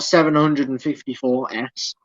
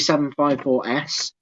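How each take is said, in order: First: The number is read as grouped larger numbers. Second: The number is read as separate single digits. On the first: The speaker calls it wrong. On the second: The speaker calls it right. "do it as individual numbers"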